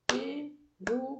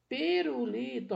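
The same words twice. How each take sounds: First: Syllable by syllable. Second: Said in the usual way. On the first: Shown as a demonstration.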